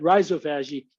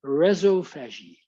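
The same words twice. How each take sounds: First: Rhizophagy opening with a long "eye", like "rye-zo"; American pronunciation. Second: Rhizophagy opening with a short "e", like "rezzo"; Australian pronunciation. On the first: Shown as a demonstration. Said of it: "that's my American accent". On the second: Retold or imitated. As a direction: imitate the Australian way, REZ-oh start to rhizophagy. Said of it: "that's their Australian accent".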